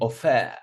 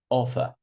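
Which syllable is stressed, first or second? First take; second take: second; first. First: The stress is on the second syllable. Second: The stress is on the first syllable. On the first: The speaker calls it wrong. "I'm not saying offer" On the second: The speaker calls it right. "on the first syllable"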